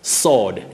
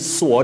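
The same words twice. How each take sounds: First: No W sound is heard after the S. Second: A W sound is heard after the S. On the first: The speaker calls it right. "W is not pronounced in that word for a weapon" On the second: The speaker calls it wrong. "Avoid saying sword when we are talking about that weapon"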